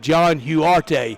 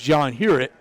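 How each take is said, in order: First: The surname is pronounced like 'Huarte'. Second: The surname is pronounced like 'Hurett'. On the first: The speaker calls it wrong. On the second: The speaker calls it right.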